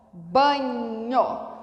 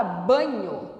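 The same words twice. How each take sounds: First: "Banho" stretched slowly, lingering on the nh; drawn-out word. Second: Said in the usual way. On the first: Shown as a demonstration. Teacher showing N H is one sound, stretched word. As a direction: draw out "Banho" to expose the nh. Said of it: "um só som". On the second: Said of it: "Na palavra banho".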